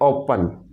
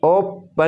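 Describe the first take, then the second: First: The stress is on the first syllable. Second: The stress is on the second syllable. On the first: The speaker calls it right. "आप कहते हैं ओपन" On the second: The speaker calls it wrong. "ओपन नहीं कहते"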